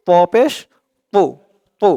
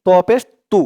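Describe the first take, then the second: First: পু as a heavy, rounded "to"; thick emphatic Arabic "to", not a light "tu"; full-mouthed emphatic to. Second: তু with a light, thin t, "tu"; তু without the full-mouthed heaviness; mistaken light tu. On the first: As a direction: fill the mouth on the t of প and পু. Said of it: "মুখটা একটু ভরপুর হয়ে যাবে". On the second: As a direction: show the common slip, a plain "tu" on তু. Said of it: "অনেকে বলে ফেলবেন যে". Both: Shown as a demonstration.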